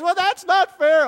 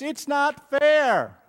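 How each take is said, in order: First: Put-on much higher and louder kid's protest; a kid protesting loudly that it's not fair. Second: Put-on higher, slow childish whine; whiny kid. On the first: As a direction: blurt it out like an indignant child. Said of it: "when one of the kids says". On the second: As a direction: drag it out like a sulking kid. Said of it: "when any kid says".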